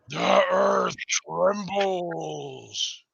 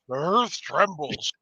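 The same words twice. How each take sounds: First: It is said in a dramatic, spooky voice. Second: It is said in a plain voice.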